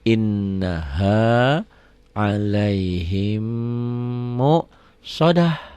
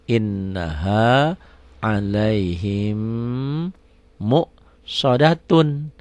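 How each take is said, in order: First: The last word ends with a soft 'h' sound. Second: The last word ends with a full 'tun' sound. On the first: The reading stops at this word. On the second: The reading continues without stopping.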